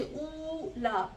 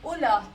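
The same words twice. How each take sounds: First: ऊला read slowly with a long ऊ in the first syllable; drawn out ऊला with a long oo vowel. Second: उला said loud with a short उ, the vav not voiced; short u reading. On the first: Teacher reads the word with a long vowel before correcting it, slow and drawn out. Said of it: "हम उलू नहीं पढ़ेंगे, हम पढ़ेंगे उ". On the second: Teacher models the correct reading for her student, loud and clear. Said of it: "हम पढ़ेंगे उ". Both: Shown as a demonstration.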